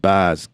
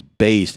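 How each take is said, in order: First: "bass" said with a short A, like fish "bass". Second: "bass" drawn out slowly with a long A, like "base". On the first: Vlogger demos the wrong short-A "bass" his critics mock. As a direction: say "bass" with the flat short A of "cat". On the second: Vlogger shows commenters' corrected long-A "bass", slowly. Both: Shown as a demonstration. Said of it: "the A's is a long".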